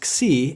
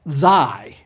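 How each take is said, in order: First: The vowel is an 'ee' sound. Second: The vowel is a different, non-'ee' sound. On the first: The speaker calls it right. "The vowel in its name is an iota, so it's Xi" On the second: The speaker calls it wrong. "It's not Xi"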